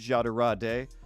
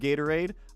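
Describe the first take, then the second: First: The word begins with a soft J sound. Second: The word begins with a hard G sound.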